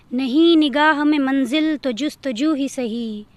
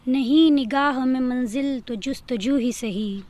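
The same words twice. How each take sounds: The two takes are said the same way.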